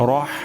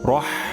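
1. h ধ্বনিটি গলার মাঝখান থেকে আসে। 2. h ধ্বনিটি গলার মাঝখান থেকে আসে।

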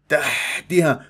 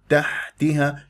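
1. يُدفع صوت الحاء بهواء قاسٍ. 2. صوت الحاء ناعم وخفيف ونظيف. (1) "تضرب لي إياها بالهواء تحتها تحتها هكذا" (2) "الحاء ساكنة رقيقة لطيفة"

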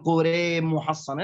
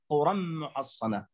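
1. حرف آخر الكلمة الأولى مُمال نحو e. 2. حرف آخر الكلمة الأولى a مفتوح.

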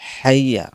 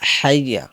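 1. শব্দটি h ধ্বনি দিয়ে শুরু হয়। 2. শব্দটি h ধ্বনি দিয়ে শুরু হয়।

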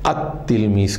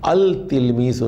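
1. ل غائب ہو جاتا ہے اور ت دوہرا ہو جاتا ہے۔ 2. الف لام کا ل واضح طور پر ادا کیا جاتا ہے۔ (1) "بلکہ التلمیز کہیں گے. تے کو دو مرتبہ پڑھیں گے" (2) "التلمیزو نہیں کہیں گے"

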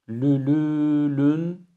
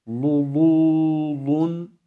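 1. Ses ü gibi öndedir. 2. Ses çok kalın bir u'dur. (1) "lülülün şeklinde ü ile değil" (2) "u şeklinde de kalın değil"

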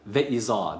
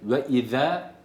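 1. Son ünlü kalın bir 'a' gibi okunuyor. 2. Son ünlü ince bir 'e' gibi okunuyor. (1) "ve iza değil" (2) "ve ize ve iza değil"

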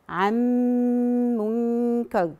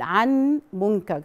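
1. صوت n يندمج كليًا في m المستمر. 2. يُسمع صوت n منفصلًا قبل m. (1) "ادغمنا النون بالكامل" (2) "هتلاقي ان في صعوبة"

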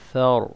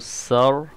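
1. शब्द की शुरुआत नरम 'th' की आवाज़ से होती है। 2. शब्द की शुरुआत साफ़ 's' की आवाज़ से होती है। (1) "ऊपर वाले जो दो दांत हैं वहाँ से सा प्रोनाउंस होता है" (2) "इसको सर नहीं पढ़ना, सीन की आवाज़ नहीं आनी चाहिए"

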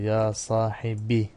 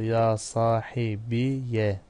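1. Kelime kısa i ünlüsüyle biter. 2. Kelime i ve ardından gelen -ya ile biter. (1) "Ve mütekellim yası hasfedilebilir" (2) "Fethalı okunması"

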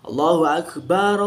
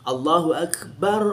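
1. Vokal pada "bar" dibaca panjang. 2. Vokal pada "bar" dibaca pendek. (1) "itu sering dibaca panjang ... itu salah" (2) "Itu benar"

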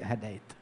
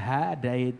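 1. Vokal pertama dibaca pendek. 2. Vokal pertama dibaca panjang. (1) "tapi hadait. Enggak pakai mad haknya" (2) "bukan hadait"

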